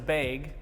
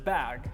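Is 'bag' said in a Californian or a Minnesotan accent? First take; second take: Minnesotan; Californian. First: The word has a Minnesotan-style vowel. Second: The word has a Californian-style vowel. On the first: "in Minnesota, the thing that you carry on your back is a bag" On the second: "Currently, I pronounce it as bag"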